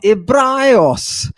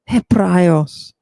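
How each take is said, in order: First: The opening H has little breathy aspiration. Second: The opening H has strong breathy aspiration. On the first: The speaker calls it wrong. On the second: The speaker calls it right.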